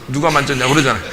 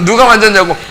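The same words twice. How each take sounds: First: Chuckling, a bit softer; light amused take on the question; said with a laugh. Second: Higher and louder, 누가 punched hard; sharp mock yell of the question; shouted question. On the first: Retold or imitated. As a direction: toss the question off half laughing. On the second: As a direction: yell it out, hitting 누가. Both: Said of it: "소리 한번 팍 질러가지고".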